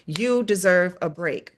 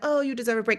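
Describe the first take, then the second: First: It is said firmly and forcefully. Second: It is said softly and gently.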